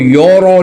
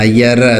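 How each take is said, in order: First: Both syllables are said heavy and dark. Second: Both syllables are said light and thin. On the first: "इसको यो रो नहीं पढ़ना" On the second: "यर दोनों को बारीक कर दो ऐसा भी नहीं करना"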